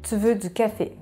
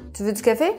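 First: The voice falls at the end. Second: The voice rises at the end. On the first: It states a fact. "la phrase normale" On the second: It asks a yes-or-no question. "monter l'intonation à la fin de la phrase"

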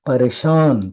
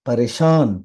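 Both takes have the same delivery.

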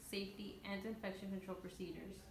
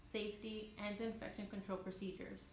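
The two takes are said the same way.

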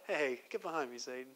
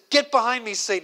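First: It is said in a light, casual way. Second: It is said with determined, forceful anger.

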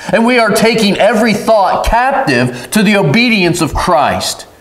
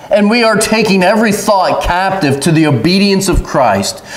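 Both takes have the same delivery.

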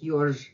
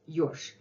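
First: The final consonant is voiced, like zh. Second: The final consonant is voiceless, like sh. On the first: "You can add some voice to it" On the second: "But Russians would say это ёж"

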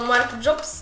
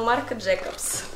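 First: The surname is said as one short syllable. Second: The surname is said with two syllables. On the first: The speaker calls it wrong. "Я говорила Марк Джобс" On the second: The speaker calls it right. "а это Марк Джейкобс"

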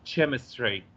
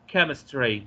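First: The word begins with a ch sound. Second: The word begins with a hard k sound. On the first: The speaker calls it wrong. "as we have got used to say CH as a cha" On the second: The speaker calls it right. "How can I say chemistry"

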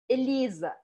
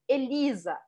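Both takes have the same delivery.

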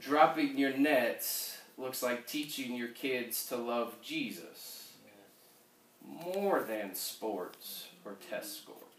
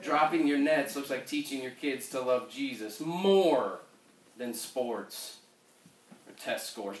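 First: It is said softly, with little confidence. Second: It is said loudly, with confidence.

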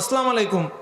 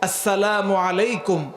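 First: The greeting is pronounced in a distorted, sloppy way. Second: The greeting is pronounced fully and carefully. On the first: The speaker calls it wrong. "কখনো এটা বলবো না" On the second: The speaker calls it right. "শুদ্ধভাবে বলবো"

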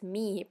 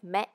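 First: The vowel sounds like 'ee'. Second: The vowel sounds like 'eh'. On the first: The speaker calls it wrong. "don't try to pronounce as" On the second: The speaker calls it right. "but as"

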